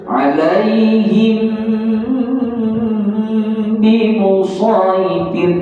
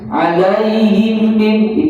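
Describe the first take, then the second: First: The nasal hum on the m is held long. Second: The nasal hum on the m is cut short. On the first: The speaker calls it right. "dengungnya cukup rasa" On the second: The speaker calls it wrong. "itu kedekut"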